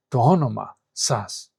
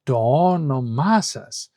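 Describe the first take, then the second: First: "όνομα" stressed only on ό, with "σας" set apart; no second stress. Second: "όνομα σας" slow, stressed on both ό and μα; rhythmic double stress. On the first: Teacher showing the difficult version, only one stress on "όνομα". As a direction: say "όνομα σας" with unstressed syllables after the first. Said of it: "if you have no stress between them". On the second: Teacher showing the easier version, two stresses on "όνομα". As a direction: alternate strong and weak syllables through "όνομα σας". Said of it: "then you have a stressed syllable". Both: Shown as a demonstration.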